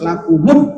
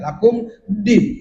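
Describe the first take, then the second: First: The m takes a u vowel joining to din. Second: The m closes with no vowel before din. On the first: The speaker calls it right. "Harus lakumun" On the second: The speaker calls it wrong. "Gak boleh"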